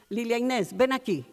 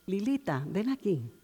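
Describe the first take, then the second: First: It is yelled in an angry voice. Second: It is called in a sweet voice.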